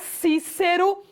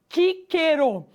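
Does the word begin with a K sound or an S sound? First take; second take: S sound; K sound. First: The word begins with an S sound. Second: The word begins with a K sound. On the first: This is the modern Portuguese pronunciation. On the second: This is the original Latin pronunciation.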